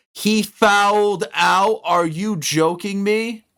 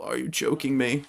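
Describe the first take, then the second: First: High, loud and slowed, each word stretched; can't believe what he's seeing; drawn-out incredulous wail; outraged disbelief. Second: Said in the usual way. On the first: Real, not acted. Best shooter fouled out.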